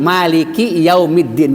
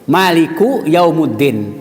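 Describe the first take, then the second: First: Both words carry an i vowel. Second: Both words carry an u vowel. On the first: The speaker calls it right. "Padahal ya" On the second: The speaker calls it wrong. "salah dikatakan baca harokatnya"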